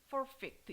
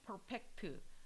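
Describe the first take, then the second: First: The word flows with natural English sounds. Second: Each syllable is spelled out in Korean-style sounds. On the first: The speaker calls it right. "정확한 발음은 ... perfect 이거에 비슷한 발음이에요" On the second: The speaker calls it wrong. "그냥 이렇게 이 단어를 외운다 그러면 퍼펙트 이렇게 외워요"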